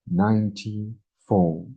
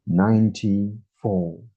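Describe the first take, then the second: No difference in how they are said.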